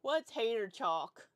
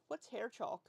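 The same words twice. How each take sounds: First: "hair chalk" drawn out slow and loud; mock your own odd way of saying "hair chalk", stretching it hard; exaggerated, loud, stretched-out "hair chalk"; weird pronunciation. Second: "hair chalk" said a little oddly, as a puzzled question; puzzled, slightly odd "hair chalk". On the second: Real, not acted. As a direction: ask what "hair chalk" is, tripping slightly oddly on the words. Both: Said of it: "I said that so weird".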